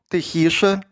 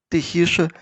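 No difference in how they are said.

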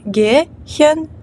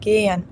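First: The middle h sound is clearly pronounced. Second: The h nearly vanishes and the vowel is long. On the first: The speaker calls it wrong. "Не gehen" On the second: The speaker calls it right. "а gehen. Тобто вона майже зникає"

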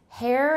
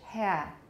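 First: It is said with an American accent. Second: It is said with a British accent. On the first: "hair in American" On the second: "In British"

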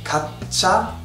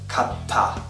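First: The middle consonant is a ch sound. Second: The middle consonant is a plain t sound. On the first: The speaker calls it wrong. "this word is not pronounced as" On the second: The speaker calls it right. "it sounds just normal"

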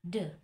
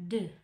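First: The word ends with an 'uh' vowel. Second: The word ends with an 'uh' vowel.

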